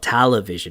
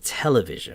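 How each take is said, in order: First: The first syllable sounds like 'tal'. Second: The first syllable sounds like 'tel'.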